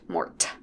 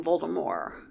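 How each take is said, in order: First: The final T sound is pronounced. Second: The final T sound is silent. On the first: The speaker calls it wrong. "Not Mort" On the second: The speaker calls it right. "Very distinctly Voldemort"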